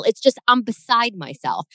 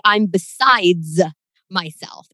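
First: "beside myself" with no s at the end; correct beside. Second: "I'm besides myself" said slowly, "besides" with a clear wrong s. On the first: Shown as a demonstration. Correcting a friend's phrase, plain and matter-of-fact. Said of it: "there's no plural". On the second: Retold or imitated. Friend mocks the wrong phrase, slow and exaggerated. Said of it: "when people say".

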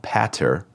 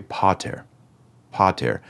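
First: "pater" with a short A, as in "pat". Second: "pater" with a long open "ah". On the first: Latin teacher showing the mistake to avoid, "pater" with short A. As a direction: say "pater" wrongly, first vowel like "cat". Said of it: "It's not pater with a short A". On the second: Latin teacher modelling the right vowel, "pater" with long A. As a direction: draw out the A in "pater" as "PAH-tair". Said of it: "It's a long A". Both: Shown as a demonstration.

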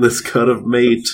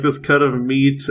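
First: "mate" with a long ay in place of ee; Australian vowel. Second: Said in the usual way. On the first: Shown as a demonstration. Showing a friend two ways to say meat, Australian "mate". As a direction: stretch "mate" into an Aussie-style meat. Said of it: "I'm Australian". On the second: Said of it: "and this cut of mate".

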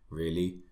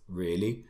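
Both takes have the same delivery.

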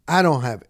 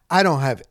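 The two takes are said the same way.

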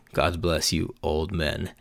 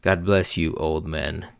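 First: Quieter snide blessing. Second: First try at her snide send-off, at normal level; a snide blessing tossed at older men, trying it out; mock polite blessing. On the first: Retold or imitated. Recalling how the girl said it, quiet snide blessing. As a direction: say it under your breath, sweetly mean. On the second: Girl leaving the bar mocks the older men, snide blessing. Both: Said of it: "how did she say it?".

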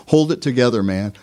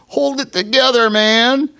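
First: Said in the usual way. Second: High, hammed-up hold it together man; mock high bro encouragement; mock pep talk. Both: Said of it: "we hear it spoken".

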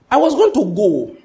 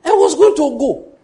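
First: Emphatic declaration. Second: High, loud preaching cry on going; emphatic shout. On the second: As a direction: belt it out, even stronger. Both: Acted. Preacher repeats line building force.

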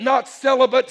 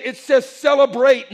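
First: "celibate" said with a short, dull "bit" ending; "celibate" spoken as the misreading; celibate set against it. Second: "celebrate" stressed with a clear "brate" ending; "celebrate" loud and emphatic; celebrate said right. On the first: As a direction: contrast "celibate" quickly after "celebrate". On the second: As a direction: land hard on "celebrate", every syllable crisp. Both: Acted. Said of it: "he said".

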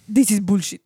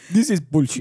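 First: Laughing, in a put-on Scottish accent; mock Scotch accent. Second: The real Scotsman version; better Scotch accent. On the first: Host's co-host mocks him in a Scottish accent. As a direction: growl it out like a Scotsman. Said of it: "In a Scotch accent". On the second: Pretend. Host shows her how a Scottish accent goes. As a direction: redo it in a put-on Scottish accent. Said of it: "That's not a Scotch accent".

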